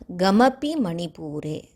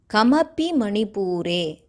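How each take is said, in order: First: The first word begins with a gh sound. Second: The first word begins with a plain k sound. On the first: The speaker calls it wrong. "not gamapi manipure" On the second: The speaker calls it right. "many of us have the habit of pronouncing ka as gha"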